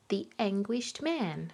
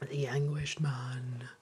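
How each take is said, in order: First: It is said in a light, smiling tone. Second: It is said in a dark, ominous tone.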